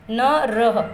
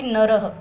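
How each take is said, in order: First: न रह split in two, रह pressed with an audible breathy ह; split into syllables. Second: Said in the usual way. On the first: Shown as a demonstration. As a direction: break it apart, landing on रह. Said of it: "तो अह का वहाँ पर प्रयोग हुआ है". (न और रह अलग-अलग, रह पर ज़ोर देकर विसर्ग की ह साफ़) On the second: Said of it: "पुल्लिंग शब्द के आगे विसर्ग लगाते हैं".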